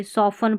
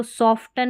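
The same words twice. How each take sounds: First: सॉफन with a silent T; correct pronunciation. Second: सॉफ्टन with the T sounded; wrong pronunciation. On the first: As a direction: say सॉफन, no T after F. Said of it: "सॉफन पढ़ते हैं". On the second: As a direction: say सॉफ्टन with a T after F. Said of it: "इसको सॉफ्टन नहीं पढ़ते". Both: Shown as a demonstration.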